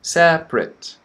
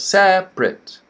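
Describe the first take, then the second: First: The word is said with two syllables. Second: The word is said with two syllables.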